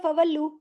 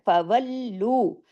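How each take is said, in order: First: The doubled l is said loosely and shortened. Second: The doubled l is joined firmly and held. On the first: The speaker calls it wrong. "ढीला ढाला फवल्लू ऐसे नहीं करना" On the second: The speaker calls it right. "सख्ती से जोड़ना है"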